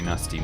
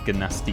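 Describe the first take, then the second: First: The initial G is silent. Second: The initial G is pronounced aloud. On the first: This is how the dragon characters say it. "all the dragons say" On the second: This is how some players and the human character say it. "I don't know why I just pronounced the G's"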